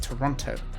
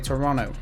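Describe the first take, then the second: First: The second T sound is clearly pronounced. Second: The second T sound is dropped or swallowed. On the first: This is the usual way to say it. The speaker calls it right. "instead of" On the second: This is how someone else says it. The speaker calls it wrong. "that's how she say Toronto"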